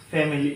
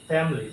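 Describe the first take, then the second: First: "ফ্যামিলি" in three syllables, fa-mi-lee; "ফ্যামিলি" as FAM-eh-lee; mistaken pronunciation. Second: "ফ্যামিলি" in two syllables, FAM-lee; "ফ্যামিলি" squeezed to fam-lee; correct pronunciation. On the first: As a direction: say "ফ্যামিলি" with a full middle vowel. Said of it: "তো এটা ভুল". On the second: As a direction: drop the middle i in "ফ্যামিলি". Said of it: "এটা হবে কি". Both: Shown as a demonstration.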